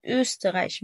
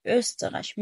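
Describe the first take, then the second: First: أوستريش begun on a tight, puckered u sound; over-rounded vowel. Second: أوستريش begun on an open ö, lips loose; correct open ö. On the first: Teacher shows what to avoid, tightly rounded first vowel. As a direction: purse the lips hard on the first vowel of أوستريش. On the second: Teacher shows the correct word, open ö. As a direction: say أوستريش with ö, not a tight ü. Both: Shown as a demonstration. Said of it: "مش مضمومة".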